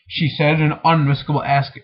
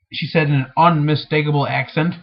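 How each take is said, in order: First: "unmistakable ask-" broken off mid-word before the reading is fixed; "ask-" clipped off as a false start; misread word. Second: "unmistakable accent" said in full, "accent" clearly finished; "accent" given whole after the false start; corrected reading. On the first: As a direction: stumble on "ask-" and cut it short. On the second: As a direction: read "accent" through cleanly as the fix. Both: Shown as a demonstration.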